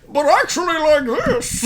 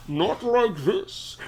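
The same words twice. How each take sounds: First: Echoing Bane voice, higher; echoing voice inside helmet. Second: Slow, quiet wrong Bane take; the slow, quiet way Bane does not talk. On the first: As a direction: boom it out like Bane in his helmet. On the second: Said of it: "Not, not, not like this". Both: Shown as a demonstration.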